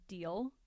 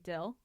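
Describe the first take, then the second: First: It has a long ee vowel. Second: It has a short i vowel, Utah-style.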